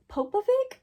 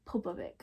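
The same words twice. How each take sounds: First: "Popovic" tried as POH-puh-vik, pitch rising sharply like a question; unsure pronunciation. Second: "Popovic" said as POH-puh-vi, low and soft with a falling end; settled pronunciation. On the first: Trying the author's name "Popovic" as a high, puzzled question. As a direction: sound out "Popovic" as an unsure guess, voice climbing up. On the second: Saying the author's name "Popovic" once more, low and quiet. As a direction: let "Popovic" drop low and quiet, as if deciding on it. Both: Shown as a demonstration. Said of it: "I'm not pronouncing it right".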